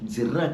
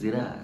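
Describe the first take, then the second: First: The word is said plainly, with clear articulation. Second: The word is said as if the mouth is full. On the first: This is how an outsider says the place name. The speaker calls it wrong. "జిర్రా కాదురా" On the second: This is how locals say the place name. The speaker calls it right.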